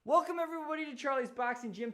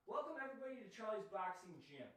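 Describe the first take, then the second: First: Higher, bright announcer intro; big host welcome. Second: Fast, soft dry run of the intro; quick quiet run-through. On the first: Streamer properly opening the boxing stream for viewers, upbeat announcer. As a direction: sell the welcome like opening a show. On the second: Streamer rehearsing the gym welcome to chat, hushed and quick. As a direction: mumble it through once to test. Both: Shown as a demonstration.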